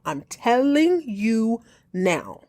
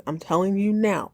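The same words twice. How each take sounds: First: "I'm telling you now" drawn out slowly, each word weighted; slow, heavy "telling"; slow emphatic warning. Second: Said in the usual way. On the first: Real, not acted. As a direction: lean into "telling" slowly and firmly.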